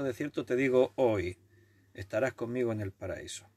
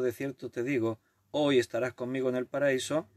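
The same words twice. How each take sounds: First: The pause comes after the word hoy. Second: The pause comes before the word hoy. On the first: The promise is made today, paradise comes later. The speaker calls it wrong. "cambiaron la coma y dicen" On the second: The listener will be in paradise this very day. The speaker calls it right. "en lugar de decir"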